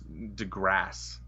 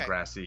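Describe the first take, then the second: First: The name ends on 'grass' with no final vowel. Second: The name ends with an added 'ee' vowel sound. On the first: The speaker calls it right. "I'm pretty sure it's DeGrasse" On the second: The speaker calls it wrong.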